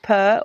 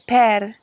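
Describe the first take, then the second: First: It is said with an Australian or English accent. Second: It is said with an Italian accent. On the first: The speaker calls it wrong. "if you're Australian or, or English" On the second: The speaker calls it right. "you want to say per"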